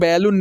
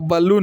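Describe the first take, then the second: First: The first syllable sounds like 'bay'. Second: The first syllable sounds like 'buh'. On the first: The speaker calls it wrong. "लेकिन बैलून नहीं होता है" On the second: The speaker calls it right. "बी का जो उच्चारण होता है ब होता है"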